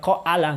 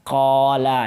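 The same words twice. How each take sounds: First: The first vowel is split into two separate sounds. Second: The first vowel is one smooth, lengthened sound. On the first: The speaker calls it wrong. "itu alif tidak dibaca qala enggak" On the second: The speaker calls it right. "hanya menjadi mat, memperpanjang uh, huruf qaf sebelumnya"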